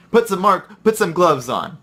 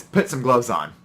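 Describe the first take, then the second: First: Higher, louder nagging repeat; insistent repeated order. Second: Said in the usual way. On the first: Retold or imitated. Coworker coming back to insist, mildly raised nag. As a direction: press the order on him again.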